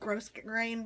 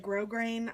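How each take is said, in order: First: The first syllable ends with an s sound. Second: The first syllable ends without an s sound. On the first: "I think this is called gross grain ribbon" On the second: "Some people say grow grain"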